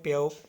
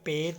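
First: The word ends in an 'o' vowel sound. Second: The word ends in a single 'e' vowel. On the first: This is the standard form of the word. "ਪਿਓ ਨੂੰ ਕੀ ਕਹਿੰਦੇ ਨੇ ਪਿਓ" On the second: This is the regional dialect form of the word. "ਪਿਓ ਨੂੰ ਕਹਿੰਦੇ ਨੇ ਪੇ"

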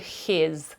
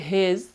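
First: The h is a rasping х sound. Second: The h is a voiced Ukrainian г sound. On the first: "я не говорю his" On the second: "Я не говорю his"

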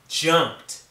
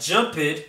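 First: The ending is a T sound. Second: The ending is not a T sound. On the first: The speaker calls it right. "it's a T sound" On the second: The speaker calls it wrong. "not jumped"

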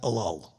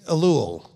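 First: The u vowel in the last syllable is short. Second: The u vowel in the last syllable is long. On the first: The speaker calls it wrong. "not Elul" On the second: The speaker calls it right. "long U"

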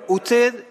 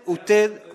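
The two takes are said the same way.

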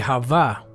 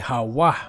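First: The middle consonant is a v sound. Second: The middle consonant is a w sound. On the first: The speaker calls it wrong. "So they say Hava, which is not really Hava because the V is not pronounced there" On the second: The speaker calls it right. "It should be Hawa"

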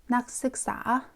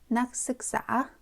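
No difference in how they are said.

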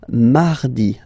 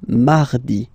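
First: The R is pronounced soft and light. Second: The same.

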